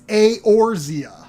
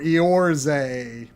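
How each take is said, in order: First: The name ends in a 'zee-uh' sound. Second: The name ends in a short 'zeh' sound. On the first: The speaker calls it right. "but it's" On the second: The speaker calls it wrong. "I pronounced it before the game came out. I thought was like"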